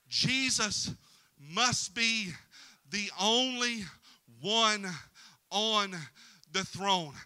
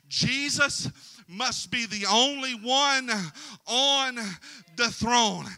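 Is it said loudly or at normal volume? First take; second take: normal volume; loudly. First: It is said at normal volume. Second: It is said loudly and proudly.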